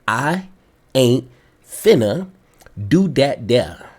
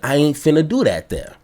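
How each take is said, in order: First: It is said slowly. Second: It is said at normal speed.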